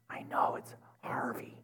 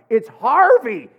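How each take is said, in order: First: Breathy whisper, voice dropped right out; whispered insistence. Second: Louder, higher and slow, each word pressed out; exasperated shout. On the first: To the drive-through girl, a hushed whispered insistence. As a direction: whisper it like a stubborn secret. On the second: To the confused drive-through girl, a slow exasperated shout. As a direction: finally lose patience and spell it out loud. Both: Retold or imitated.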